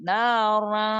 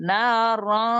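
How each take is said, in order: The two takes are said the same way.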